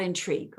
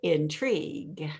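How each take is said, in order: First: "intrigue" short and falling, swallowed; buried intrigue. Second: "intrigue" stretched slowly and savoured; elongated intrigue. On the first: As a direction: clip "intrigue" and let it drop. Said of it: "instead of bury it, not intrigue". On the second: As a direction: draw out "intrigue" long and slow. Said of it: "And now elongate it". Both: Shown as a demonstration.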